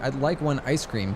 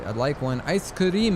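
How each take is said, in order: First: Ice cream is said with plain English sounds. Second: Ice cream is said with Japanese syllables and vowels. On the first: "I don't say" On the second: "if I say ice cream in Japanese, ... I'd say"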